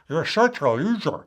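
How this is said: It is said in a silly, ridiculous voice. The criticism loses its emotional intensity. The speaker calls it right. "you might want to make it ridiculous"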